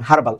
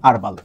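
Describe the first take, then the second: First: The word begins with a clear h sound. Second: The word begins directly with a vowel sound. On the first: This is the British pronunciation. "হার্বাল উচ্চারণটা হলো UK বা British উচ্চারণ" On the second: This is the American pronunciation. "এইচটা silent রাখেন তখন আপনি বলবেন আরবাল"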